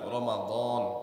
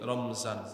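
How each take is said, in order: First: A vowel after the m, then a d sound. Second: No vowel after the m, then a z sound. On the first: This is the original Arabic way of saying it. The speaker calls it right. "শুদ্ধ উচ্চারণ হলো রমাদন" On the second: This is the everyday Bengali way of saying it. The speaker calls it wrong. "মিমের মধ্যে সাকিন দিয়ে পড়ি রমজান"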